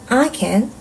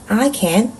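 Both takes have the same delivery.

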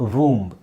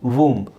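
No difference in how they are said.

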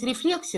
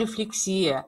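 First: The stress falls on the standard syllable. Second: The stress falls on a shifted, nonstandard syllable. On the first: The speaker calls it right. "Правильно говорить рефлексия" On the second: The speaker calls it wrong. "я так привыкла, что делаю уже другое ударение"

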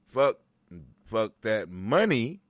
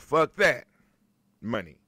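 First: It is said without a pause before 'money'. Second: There is a pause before 'money'. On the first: The speaker calls it wrong. "Not fuck that money" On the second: The speaker calls it right. "It's a pause after you say fuck that"

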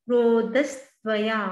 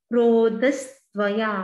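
No difference in how they are said.

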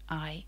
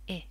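First: The vowel sounds like its letter name. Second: The vowel is a short, clipped sound. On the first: "a long sound where it says its own name" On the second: "or a short sound"

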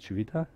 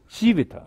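First: The stress is not on the first syllable. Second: The stress is on the first syllable. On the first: The speaker calls it wrong. "I hope I pronounced it correctly" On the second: The speaker calls it right. "you should put it in the emphasis on the first"

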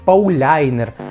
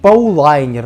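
First: The middle is pronounced 'lyai', softened with a glide. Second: The middle is pronounced 'lai', with a diphthong. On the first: "не кажіть Пауляйнер" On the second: "не кажіть Паулайнер"

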